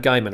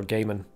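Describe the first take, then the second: First: "Gaiman" with first syllable like "guy"; GUY-man pronunciation. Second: "Gaiman" with first syllable like "gay"; GAY-man pronunciation. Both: Shown as a demonstration. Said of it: "depending on how you want to pronounce it".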